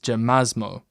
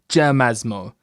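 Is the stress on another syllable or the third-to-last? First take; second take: another; third-to-last. First: The stress is not on the third-to-last syllable. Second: The stress is on the third-to-last syllable. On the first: The speaker calls it wrong. "instead of like" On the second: The speaker calls it right. "stress tends to be on the third to last syllable"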